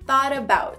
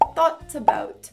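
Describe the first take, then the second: First: The T is softened into a quick R-like tap. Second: The T is pronounced as a clear T sound. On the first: "esse T no final de thought vai se formar um R" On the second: "na pronúncia britânica poderia assim"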